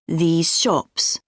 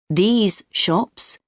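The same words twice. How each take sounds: First: These ends with a zh sound. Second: These ends with a clear z sound.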